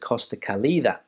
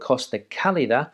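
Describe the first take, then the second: First: The stress is on the second syllable of Calida. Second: The stress is on the first syllable of Calida. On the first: The speaker calls it wrong. "a lot of people pronounce it Costa Calida" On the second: The speaker calls it right. "a place down there in Murcia which is called Costa Calida"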